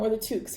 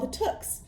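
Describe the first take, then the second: First: The name sounds like the hat word toque. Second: The name does not sound like the hat word.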